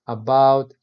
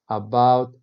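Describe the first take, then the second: No difference in how they are said.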